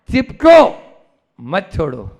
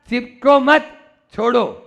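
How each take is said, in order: First: The pause comes after 'chipko'. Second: The pause comes after 'mat'.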